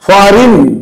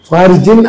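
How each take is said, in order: First: The word is said with no g sound. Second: The word is said with a g sound. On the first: The speaker calls it right. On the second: The speaker calls it wrong.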